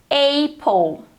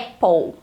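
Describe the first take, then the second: First: The first vowel is an 'ei' glide. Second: The first vowel is a plain short vowel. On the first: The speaker calls it wrong. "muitas pessoas pronunciam apple" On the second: The speaker calls it right. "o correto para pronunciar em inglês essa palavra é apple"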